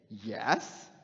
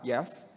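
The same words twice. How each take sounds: First: The word is said in a sarcastic way. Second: The word is said in a plain, sincere way. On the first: The speaker implies much more than simple agreement. "Jay's a sarcastic guy. Why would he say yes like that?" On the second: The speaker is simply agreeing. "you would perceive that, that I am answering in the affirmative"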